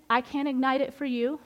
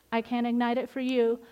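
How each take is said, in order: First: "ignite" lifted with a rise, rest of the line level; stress on ignite. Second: "you" carries the weight at the end, "ignite" unstressed; stress on you. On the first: Telling the ladies who must light the fire, stress on "ignite". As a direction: lean on the word "ignite". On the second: Pointing the ladies at themselves, stress on "you". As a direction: land the line on "you". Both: Shown as a demonstration. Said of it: "repeated with shifted stress".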